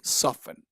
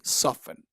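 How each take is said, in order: First: The T sound is silent in the middle. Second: The same.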